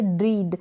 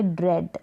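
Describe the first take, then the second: First: ड्रीड with a long ee, rhyming with "need"; wrong long vowel. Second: ड्रेड with a short e, rhyming with "bed". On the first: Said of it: "जो कि गलत होगा". (ड्रीड, लंबी ई के साथ) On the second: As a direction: keep the vowel short in ड्रेड. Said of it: "इसको pronounce करेंगे". (ड्रेड, छोटी ए की आवाज़) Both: Shown as a demonstration.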